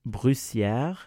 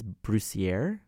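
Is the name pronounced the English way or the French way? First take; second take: French; English. First: The name is pronounced with French sounds. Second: The name is pronounced with English sounds. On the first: "I'm going to pronounce it in French" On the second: "If not, it's Brussière"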